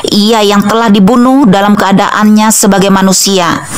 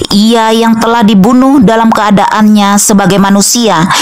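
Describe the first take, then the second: The two takes are said the same way.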